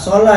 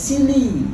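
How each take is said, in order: First: It is said with an o and a vowels. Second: It is said with two i vowels. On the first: The speaker calls it wrong. "orang kita bacanya apa? Sholah ya" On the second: The speaker calls it right. "Itu sebenarnya bukan sholah dibacanya, tapi sili"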